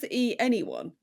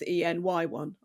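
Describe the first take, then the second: First: The middle part is said as the word 'any'. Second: The middle part is spelled out as separate letters. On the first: "Is it supposed to be pronounced the E anyone?" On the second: "or is it supposed to be pronounced the E N Y one?"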